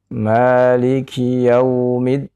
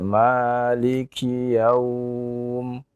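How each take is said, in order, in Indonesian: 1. Bunyi 'yau' dibaca pendek dan langsung terus. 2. Bunyi 'yau' ditahan panjang saat berhenti. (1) "tidak dibaca panjang" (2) "membaca dengan mad madlin, ya. Maka dibaca panjang"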